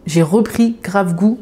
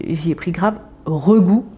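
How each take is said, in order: First: Slow careful "J'ai repris grave goût"; deliberate correction "J'ai repris grave goût"; corrected phrase. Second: Slow jumbled "j'y ai pris grave regoût"; tongue-tied "j'y ai pris grave regoût"; garbled word order. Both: Real, not acted. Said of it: "enfin bref, vous avez compris".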